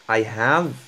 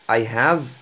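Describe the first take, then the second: No difference in how they are said.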